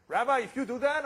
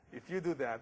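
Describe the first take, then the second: First: Loud, high, eager cry with a rising end; tailor's excited shout. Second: Said in the usual way. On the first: Acted. Tailor to the rabbi, thrilled at the match offer: loud high excited cry. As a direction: burst out with delight at the offer.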